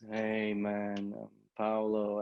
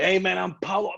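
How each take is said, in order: First: It sounds flat and unenthusiastic. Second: It sounds lively and enthusiastic.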